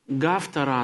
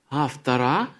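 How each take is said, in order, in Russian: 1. Слово начинается с чёткого, хорошо слышимого согласного. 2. Слово начинается с почти неслышного гортанного звука. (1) "Иногда говорят «гавтора», но это русский как бы вариант такой" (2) "правильно сказать «автора», но этот звук гортанный... произносится практически неслышно"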